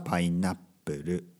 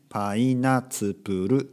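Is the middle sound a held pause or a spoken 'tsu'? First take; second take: held pause; spoken tsu. First: A short silent hold replaces the middle syllable. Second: A full 'tsu' syllable is spoken in the middle. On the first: "普通に話すときはパイナップル" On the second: "「つ」をね大きく言えばパイナツプル"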